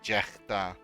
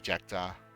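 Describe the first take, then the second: First: The middle consonant is a throaty G sound. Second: The middle consonant is a plain K sound. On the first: This is how it is said in the speaker's own language. "in my language you will say like Jechta, like with with the with the G" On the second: This is how it is said in English. "in English I just say Jekta"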